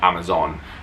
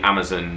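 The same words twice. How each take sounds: First: The last syllable has a full, clear vowel. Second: The last syllable is reduced, with almost no vowel. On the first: The speaker calls it wrong. "not Amazon" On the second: The speaker calls it right. "the pronunciation of Amazon should be Amazon"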